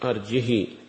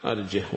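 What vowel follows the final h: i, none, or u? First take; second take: i; none. First: No glottal stop; the final h takes long i. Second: No glottal stop; the final h takes no vowel. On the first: "يشبعان الهاء كسرا، ربما يتولد منها الياء" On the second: "ويسكنها عاصم وحمزة"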